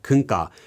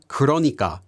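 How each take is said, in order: First: It is shortened to three syllables. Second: It is said in full with four syllables. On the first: "it's often shortened in casual speech to" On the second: "This is actually the word 그러니까"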